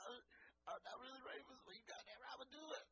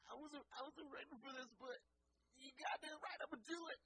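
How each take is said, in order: First: High, breathy, near tears, voice cracking; excited shaky quote. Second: High, cracking voice, building to a shout; excited shaky quote. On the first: Guest quoted again, high and near tears. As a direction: gasp it out like you might cry. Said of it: "One of the greatest quotes". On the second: Guest overwhelmed by the offer, high cracking shout. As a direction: squeal it out, overwhelmed, then yell yes. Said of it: "he was like". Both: Retold or imitated.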